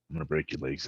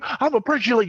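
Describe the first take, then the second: First: It is spoken quietly and calmly. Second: It is yelled loudly and angrily. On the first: The threat is serious and frightening. The speaker calls it right. "That's terrifying" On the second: The speaker is just mad, not serious. The speaker calls it wrong. "If I'm yelling at you, you're not gonna take it as serious"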